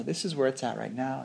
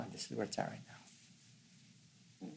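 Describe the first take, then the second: First: Said in the usual way. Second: Very soft, slow near-whisper; hushed noticing. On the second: Retold or imitated. Showing how to really know the moving mind, hushed noticing. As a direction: let it sink almost to a whisper, slowly.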